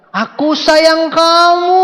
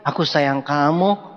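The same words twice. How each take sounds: First: Higher, louder, slow yell over traffic; shouted love line. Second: Soft and slow, a quiet car-ride love line; husband softly telling his wife he loves her; soft romantic. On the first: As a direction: bellow it from the back of a motorbike. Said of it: "ngomong kencang-kencang". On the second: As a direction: say it gently, no need to raise your voice. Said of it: "Yasin ngomong ke Koli". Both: Retold or imitated.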